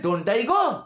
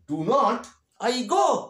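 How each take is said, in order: First: Do and not are merged into one syllable. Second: Do and not are said as two full words.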